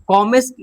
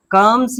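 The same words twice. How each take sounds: First: कॉमेस read letter by letter as ko-mes, rising; कॉमेस said wrongly as two syllables ko-mes; spelling-based wrong reading. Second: कम्स said as one syllable kums; कम्स with short u and silent e; correct pronunciation. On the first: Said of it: "इसको कॉमेस क्यों नहीं पढ़ें". (कॉमेस को गलत ढंग से को-मेस पढ़ना) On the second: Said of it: "कम्स ही क्यों पढ़े इसको". (कम्स का सही उच्चारण, एक अक्षर में) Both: Shown as a demonstration.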